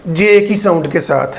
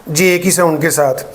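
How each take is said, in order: Both takes have the same delivery.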